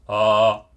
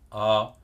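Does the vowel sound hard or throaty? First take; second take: hard; throaty. First: The vowel resonates with a hard, rigid sound. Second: The vowel resonates back in the throat. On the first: "je vais vers le voile du palais... une dureté dans la résonance" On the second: "là je vais vers la gorge, vers le pharynx"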